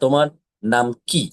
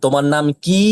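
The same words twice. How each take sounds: First: The final vowel is short and clipped. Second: The final vowel is stretched out long.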